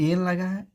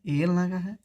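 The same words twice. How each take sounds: The two takes are said the same way.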